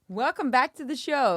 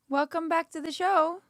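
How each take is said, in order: First: It is said with a commanding newsreader authority. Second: It is said casually, without authority.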